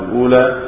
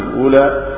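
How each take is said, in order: The two takes are said the same way.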